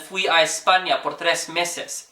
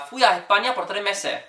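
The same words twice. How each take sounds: First: It has a standard accent with S pronounced. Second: It has a Venezuelan or Chilean accent dropping S.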